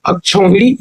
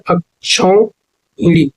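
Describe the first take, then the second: First: Said in the usual way. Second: अक्षौहिणी very slowly, अक्, क्षौ, then हिणी; broken into parts. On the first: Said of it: "ये सही है". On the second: Shown as a demonstration. Teacher confirming the right spelling, अक्षौहिणी slowly in syllables. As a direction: stretch अक्षौहिणी part by part. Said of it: "ये शुद्ध वर्तनी है".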